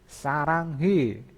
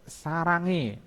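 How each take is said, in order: First: The h sound is pronounced. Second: The h sound is dropped. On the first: The speaker calls it wrong. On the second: The speaker calls it right.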